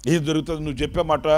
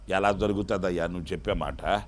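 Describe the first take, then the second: First: Fast, dismissive retort; rushed doubting. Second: Low, soft scoffing question; doubting old priest. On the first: Priest scoffing at the angel, fast and dismissive. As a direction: brush the promise off quickly. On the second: Old priest doubting the angel, low and scoffing. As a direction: doubt it, quietly scornful. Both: Retold or imitated.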